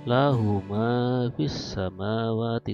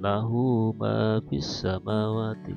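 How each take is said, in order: First: The vowel of 'hu' is short. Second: The vowel of 'hu' is lengthened. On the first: The speaker calls it wrong. "tidak membacanya" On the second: The speaker calls it right.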